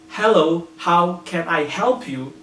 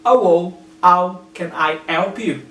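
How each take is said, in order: First: The H sounds at word starts are pronounced. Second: The H sounds at word starts are dropped. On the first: "he doesn't say" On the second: "He dropped the H sound"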